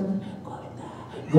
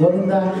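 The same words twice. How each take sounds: First: Mock timid, very soft voiceless chant; furtive whisper. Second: Said in the usual way. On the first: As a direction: barely breathe it out, imitating someone afraid of being noticed. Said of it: "పక్కవాడు ఎక్కడ చూస్తాడు". (ఎవరికీ వినపడకుండా గుసగుసగా) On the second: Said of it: "అంటే నీ జీవితం అయిపోయిందా అవుతుంది".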